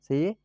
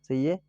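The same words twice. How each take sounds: The two takes are said the same way.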